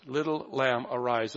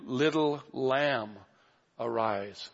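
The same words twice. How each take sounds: First: Said in the usual way. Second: Tender and slow. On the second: Shown as a demonstration. Preacher savouring Jesus's words to the girl, tender and slow. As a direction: linger tenderly over Little lamb, then let arise sink.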